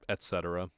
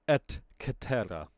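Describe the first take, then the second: First: It is said with an ordinary English pronunciation. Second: It is said with a classical Latin pronunciation.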